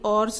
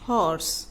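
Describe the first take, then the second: First: The word starts without an h sound. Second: The word starts with an audible h sound. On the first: The speaker calls it wrong. "अब इसको ये ऑर्स नहीं है" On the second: The speaker calls it right. "This is हॉर्स। एच की जो sound है वो हमें सुनाई दे रही है"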